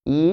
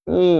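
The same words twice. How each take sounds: First: Said in the usual way. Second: ই sent through the nose; nasalized ই, held as a hum; nasal vowel. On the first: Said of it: "যখন বলছি ই". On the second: Shown as a demonstration. Teacher contrasting it with the oral vowel, ই nasalized. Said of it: "নাসিক্যের উচ্চারণটা হচ্ছে ই".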